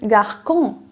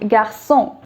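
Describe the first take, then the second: First: The middle consonant is a hard k sound. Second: The middle consonant is a soft s sound. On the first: The speaker calls it wrong. "without the accent, it would have been garçon" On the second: The speaker calls it right. "But we want pronunciation to be garçon"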